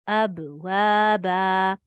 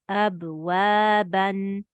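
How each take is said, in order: First: The word ends with a long, held a vowel. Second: The word ends with a short a and n.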